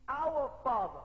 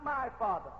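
First: "our" leaned on, then "Father" falls away; weight the word "our" in "our Father"; stress on our. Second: Said in the usual way. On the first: Shown as a demonstration. Preacher correcting congregation, stressing "our" in "our Father".

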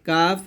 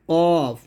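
First: কাফ with a thin "aa"; light kaf. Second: কফ thick, with a rounded vowel; heavy qaf. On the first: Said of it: "হরকতের ভিন্ন উচ্চারণ". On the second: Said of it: "মোটা করে উচ্চারণ". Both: Shown as a demonstration.

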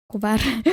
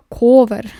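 First: Said in the usual way. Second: Loud laughing repeat of "Ковер". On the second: Real, not acted. Rereading odd word, laughing.

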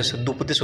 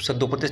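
First: सद्दुपदेश said with a short u, sad-du-pa-desh; the correct form सद्दुपदेश, said firmly; correct spelling read out. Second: सद्दोपदेश said with an o sound, sad-do-pa-desh; the incorrect form सद्दोपदेश, said plainly; wrong spelling read out. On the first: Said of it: "सद्दुपदेश होता है". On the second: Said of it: "सद्दोपदेश नहीं होता है". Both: Shown as a demonstration.

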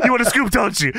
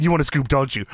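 First: High, hammed-up wrestler impression; Booker T. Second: Said in the usual way. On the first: Wrestler teasing the interviewer, high hammed-up impression. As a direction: push it high, playfully imitating the champ. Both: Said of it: "He said".

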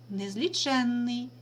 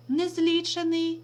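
First: Незліченний with stress on the suffix, the нн held long and slow. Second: Незлічений with stress on the і of ліч; stress on the root. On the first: Teacher contrasting the two words for pupils, slow and stressing the suffix. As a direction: draw out незліченний, leaning on the doubled нн. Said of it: "має наголошений суфікс «н»". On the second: Teacher contrasting the two words for pupils, stressing the root. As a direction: say незлічений, leaning on the root і with a single н. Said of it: "наголос падає на звук «і»". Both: Shown as a demonstration.

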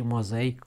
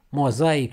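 First: Mozaic stressed on i, 'moza-IC'; other accent on mozaic. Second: Mozaic stressed on a, 'mo-ZA-ic'; one of two accents. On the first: Teacher gives the other word, mozaic stressed at the end. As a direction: land on the final syllable of mozaic. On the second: Teacher contrasts two words, Mozaic stressed on a. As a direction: lean on ZA in Mozaic. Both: Shown as a demonstration. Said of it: "cuvinte diferite".

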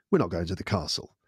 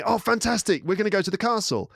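First: Low, matter-of-fact verdict; deadpan letdown. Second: Much higher, excited imitation of wife; mock delight. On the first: Retold or imitated. Husband to wife after reading dad's email, deadpan. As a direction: break the bad news plainly. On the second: Wife misreading dad's email to husband, delighted. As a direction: gush as if the outing is settled.

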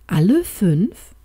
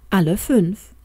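First: Slow, doubtful "Alle fünf?" rising at the end; unsure. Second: Said in the usual way. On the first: A narrator's reading. Doctor doubting his wife's plan, slow and unsure. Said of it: "Die Stimme des Doktors hatte einen unsicheren Klang".

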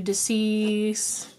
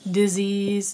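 First: "disease" drawn out as dis-ease, with an s sound; split pronunciation. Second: Said in the usual way. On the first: Shown as a demonstration. Reader warns of what is causing dis-ease, "disease" said split. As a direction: stretch "disease" into two parts, dis and ease.

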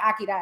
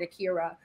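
First: "Akira" said as ah-kee-dah, tapped r; accented "Akira", ending in -dah. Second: "Akira" said as uh-KEER-uh; "Akira" the common English way, uh-keer-uh; common pronunciation of Akira. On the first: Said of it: "but I have an accent". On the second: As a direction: say "Akira" with a reduced first vowel and an American r. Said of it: "Everybody else calls it Akira". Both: Shown as a demonstration.

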